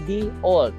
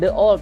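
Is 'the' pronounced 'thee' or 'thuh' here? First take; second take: thee; thuh. First: The is said with a long 'ee' vowel. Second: The is said with a short 'uh' vowel. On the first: The speaker calls it right. "Bacanya di" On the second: The speaker calls it wrong. "Bukan the old bacanya"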